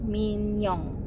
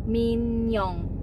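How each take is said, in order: The two takes are said the same way.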